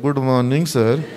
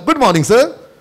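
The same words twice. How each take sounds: First: It is said dully, without cheer. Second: It is said cheerfully, with happiness.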